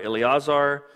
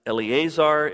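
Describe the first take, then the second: First: Eleazar as "el-ee-AH-zar"; an open "ah" in the middle of Eleazar; open A variant. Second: Eleazar as "el-ee-AY-zar"; a long "ay" in the middle of Eleazar; long A variant. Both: Shown as a demonstration. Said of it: "there's no long A in Hebrew".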